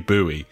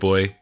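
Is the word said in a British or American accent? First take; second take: American; British. First: It is said the American way, 'boo-ee'. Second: It is said the British way, like 'boy'.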